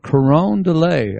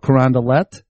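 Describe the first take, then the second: First: The name ends without a final T sound. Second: The name ends with a sounded T. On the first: This is the French-style way the speaker tried. "I tried to say" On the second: This is how the locals say it. "They pronounce the T's"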